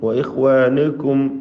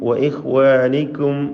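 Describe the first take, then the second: First: The vowel before kum is a rounded u. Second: The vowel before kum sounds like i. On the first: The speaker calls it right. "ചുണ്ടുകൾ വൃത്താകൃതിയിൽ വെച്ചുകൊണ്ട് ദമ്മ് ഉച്ചരിക്കണം" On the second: The speaker calls it wrong. "ഒരു കസ്റ് ചേർത്തുകൊണ്ട്"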